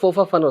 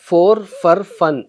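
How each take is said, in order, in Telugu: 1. ఈ పదాలను వేగంగా కలిపి, తగ్గించి ఉచ్చరిస్తారు. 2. ప్రతి పదాన్ని పూర్తిగా, విడివిడిగా ఉచ్చరిస్తారు. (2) "'ఫో ఫా ఫన్' ఏంటంటే ఫోర్ ఫర్ ఫన్"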